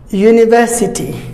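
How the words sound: The middle t is a clear t. "British say university"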